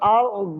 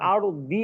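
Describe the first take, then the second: First: The word ends with a light bounced 'd'. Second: The word ends with a full 'di' vowel. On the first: The speaker calls it right. "হালকা দর মতো উচ্চারণ হবে" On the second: The speaker calls it wrong. "তখন আবার আর দি এরকম না"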